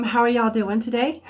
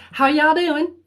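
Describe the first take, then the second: First: Said in the usual way. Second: Put-on playful southern accent. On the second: Host greeting her viewers in a playful Southern accent. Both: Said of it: "feeling a little southern".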